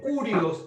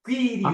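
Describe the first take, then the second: First: The first vowel sounds like oo. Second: The first vowel sounds like ee. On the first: The speaker calls it wrong. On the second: The speaker calls it right. "Mucha gente pronuncia Q, no Q, quirios"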